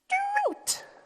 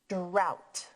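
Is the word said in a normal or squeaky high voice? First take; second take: squeaky high; normal. First: It is said in a squeaky, high mouse voice. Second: It is said in a normal voice.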